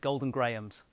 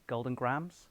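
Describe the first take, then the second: First: Grahams is said with two syllables. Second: Grahams is said as a single syllable. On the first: This is how people in the UK say it. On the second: This is how Americans say it.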